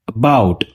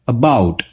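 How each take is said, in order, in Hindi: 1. पहला स्वर कमज़ोर, रिड्यूस्ड श्वा है। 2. पहला स्वर कमज़ोर, रिड्यूस्ड श्वा है।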